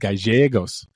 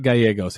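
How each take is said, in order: First: The double L sounds like a 'sh'. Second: The double L sounds like a 'y'. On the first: The speaker calls it right. "it's ja" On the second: The speaker calls it wrong. "the L L isn't ya"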